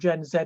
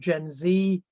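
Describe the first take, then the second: First: The letter is said as British 'zed'. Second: The letter is said as American 'zee'.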